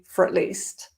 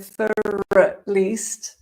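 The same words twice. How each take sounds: First: 'For at' is squeezed into one weak syllable. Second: Each word is said fully and separately. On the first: "but more likely" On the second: "you might hear"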